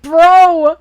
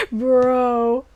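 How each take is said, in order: First: "Bro!" higher and louder, exasperated; an exasperated yell at the clueless hero; exasperated shout. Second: Said in the usual way. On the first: Retold or imitated. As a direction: throw up your hands with "Bro!". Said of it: "It's like". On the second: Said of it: "And I'm like".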